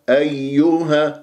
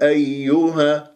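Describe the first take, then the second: The two takes are said the same way.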